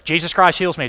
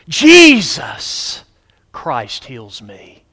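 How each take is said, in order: First: It is said flatly, without emphasizing any word. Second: One word is clearly emphasized.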